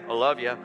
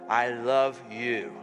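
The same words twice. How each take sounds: First: It is said in a flat, offhand tone. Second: It is said in a warm, heartfelt tone. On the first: The speaker calls it wrong. "try that again" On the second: The speaker calls it right.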